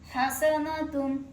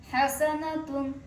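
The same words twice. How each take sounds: The two takes are said the same way.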